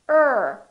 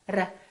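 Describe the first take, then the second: First: The R is curled back without touching. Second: The R is rolled with the tongue tip. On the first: The speaker calls it right. "the tip of the tongue curls and we pull it back" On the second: The speaker calls it wrong. "That's called a rolling R"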